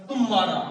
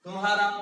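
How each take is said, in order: First: तुम्हारा with a hard, loud push on तुम; stress on first syllable. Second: Said in the usual way. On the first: Shown as a demonstration. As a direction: punch the opening तुम of तुम्हारा. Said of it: "जोर पड़ा ना तू के ऊपर". (तुम्हारा के पहले अक्षर तु पर ज़ोर) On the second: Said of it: "कहाँ पड़ा जोर?".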